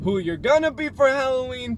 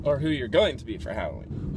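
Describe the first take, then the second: First: Loud, high, playful shout; hyped-up holler. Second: Said in the usual way. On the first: Pretend. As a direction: holler it high like a hype man.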